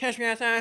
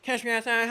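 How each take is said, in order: First: The word catch is slurred so it sounds like cash. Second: The word catch is slurred so it sounds like cash.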